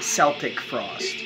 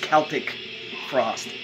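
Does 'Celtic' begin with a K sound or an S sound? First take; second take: S sound; K sound. First: Celtic begins with a soft S sound. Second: Celtic begins with a hard K sound. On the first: The speaker calls it wrong. "not Celtic Frost" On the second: The speaker calls it right. "I do believe it's Celtic Frost"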